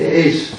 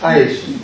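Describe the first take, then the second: First: The vowel sounds like the word ace. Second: The vowel sounds like the word ice. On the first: This is the pronunciation used in this book. "now we pronounce it ace" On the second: This is another way of pronouncing it. "the way the man said is ice"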